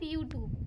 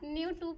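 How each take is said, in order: First: The word begins with a Y sound. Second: The word begins with an N sound. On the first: The speaker calls it right. "वो यूट्यूब कहा" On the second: The speaker calls it wrong. "न्यूट्यूब नहीं"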